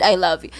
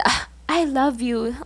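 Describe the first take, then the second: First: Said in the usual way. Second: Softly voiced mock-tender "Ah, I love you" from the crush; a touch of the crush's sweet talk, a little higher and softer; crush's sweet line. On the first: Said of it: "he threw it and said". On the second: Crush tosses the gift then says it, lightly mock-tender. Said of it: "he said".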